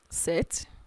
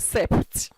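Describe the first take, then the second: First: The P sound is left silent in the word. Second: The P sound is pronounced in the word. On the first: The speaker calls it right. "you don't pronounce the P" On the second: The speaker calls it wrong. "You don't say sept"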